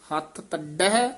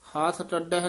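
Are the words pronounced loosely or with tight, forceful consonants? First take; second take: tight; loose. First: The consonants are said tightly, with extra force. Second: The consonants are said loosely, without extra force. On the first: The speaker calls it right. "ਕਸ ਕੇ ਬੋਲਨੇ ਆ" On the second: The speaker calls it wrong. "ਨਹੀਂ ਬੋਲਣਾ"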